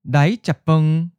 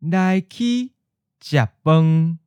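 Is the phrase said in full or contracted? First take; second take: contracted; full. First: The phrase is contracted with the ninth tone. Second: Every syllable of the phrase is said in full. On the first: "then pause before giving you the contracted version" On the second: "We'll give you the full word"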